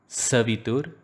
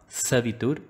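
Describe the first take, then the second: No difference in how they are said.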